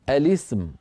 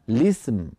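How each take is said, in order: First: The word begins with a vowel before the l. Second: The word begins directly with the l sound. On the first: The joining hamza is kept as originally. "يقرؤونها على الأصل" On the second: The joining hamza is dropped as unneeded. "فلا داعي لهذه الهمزة"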